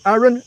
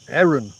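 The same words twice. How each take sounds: First: The first vowel does not sound like 'eh'. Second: The first vowel sounds more like 'eh'. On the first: The speaker calls it wrong. "not Aaron" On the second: The speaker calls it right. "he pronounces it with more of an E sound"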